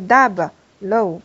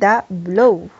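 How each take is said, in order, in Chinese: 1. b 结束第一个音节。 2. b 开始第二个音节。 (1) "你不能是dab 一个音节，low 这就错了啊！" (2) "你必须是da blow 这样才可以。"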